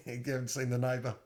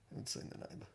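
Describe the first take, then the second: First: Said in the usual way. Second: Very soft, voiceless echo; whispered repeat. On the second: Real, not acted. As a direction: repeat it under your breath. Repeats it under the breath.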